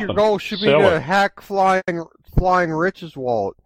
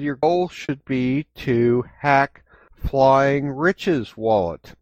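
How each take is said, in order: First: The sentence is spoken at a fast pace. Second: The sentence is spoken at a slow pace.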